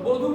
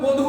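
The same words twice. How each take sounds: First: The first vowel is open and unrounded. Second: The first vowel is rounded, like o. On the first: The speaker calls it wrong. "বলবো না" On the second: The speaker calls it right. "বলবো"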